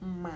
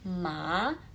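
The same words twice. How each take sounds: First: The pitch falls first, then rises slightly. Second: The pitch rises straight upward throughout. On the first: "nada tiga ma" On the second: "nada dua ma"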